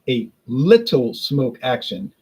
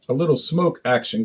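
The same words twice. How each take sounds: First: The word little is strongly stressed. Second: No word is given special stress.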